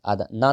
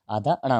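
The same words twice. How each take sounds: First: ना with a plain dental n; wrong letter. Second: अणा with a retroflex n after a short a; correct letter. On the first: Teacher rejecting the wrong letter, dental n in ना. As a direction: say आधा ना with the tongue on the teeth. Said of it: "आधा ना नहीं होता". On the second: Teacher giving the right letter, retroflex n in अणा. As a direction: curl the tongue back for the n in अणा. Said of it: "आधा अणा होता है". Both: Shown as a demonstration.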